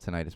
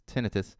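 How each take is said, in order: First: The word is said the non-British way. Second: The word is said the British way. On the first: "I I call it tinnitus" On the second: "in Britain it's tinnitus"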